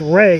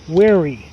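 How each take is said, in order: First: The name is said with one syllable. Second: The name is said with two syllables. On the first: The speaker calls it right. "I think it's just Ray" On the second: The speaker calls it wrong. "I've been saying Weary"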